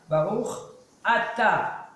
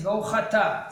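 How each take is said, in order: First: The words are said slowly and separately. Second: The words are run together quickly.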